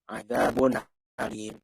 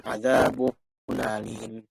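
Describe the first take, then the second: First: The n is said clearly apart from the next word. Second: The n runs straight into the next word. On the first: The speaker calls it right. "Jelaskan apanya? Aminnya" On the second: The speaker calls it wrong.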